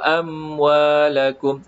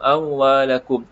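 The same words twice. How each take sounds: First: The m is full, lips firmly closed. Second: The m is weak, lips not fully closed. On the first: The speaker calls it right. "sedangkan sebutan yang sebenar adalah" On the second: The speaker calls it wrong. "bila mim tadi tak sempurna dia akan seolah-olah"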